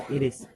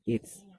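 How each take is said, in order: First: Both words are said fully and separately. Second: The two words merge into one syllable. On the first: "it should be pronounced it is" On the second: "we can pronounce it as it's"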